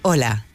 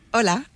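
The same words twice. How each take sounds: First: It sounds calm, confident and assertive. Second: It sounds relaxed, warm and friendly.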